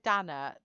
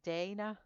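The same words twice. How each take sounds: First: The name is said with a British pronunciation. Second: The name is said without a British pronunciation. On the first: This is how the speaker used to say the name. The speaker calls it wrong. "I said Dana" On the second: This is how the name is really pronounced. The speaker calls it right. "it's Dana"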